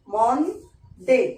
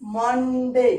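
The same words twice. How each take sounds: First: मंडे said very slowly as mon-de; मंडे spoken slowly, each syllable held apart; syllables drawn out. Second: Said in the usual way. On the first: Shown as a demonstration. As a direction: stretch मंडे into its two syllables. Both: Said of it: "two syllable word में".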